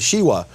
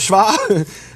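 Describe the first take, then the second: First: The word is said with two syllables. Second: The word is said with one syllable. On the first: Someone who does not know Hebrew says it this way. The speaker calls it wrong. "he calls it the shiwa" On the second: Hebrew speakers say it this way. The speaker calls it right. "But no, we call it the shva"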